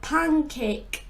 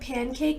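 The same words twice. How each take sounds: First: It is said with a heavy Cuban accent. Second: It is said in the speaker's plain accent.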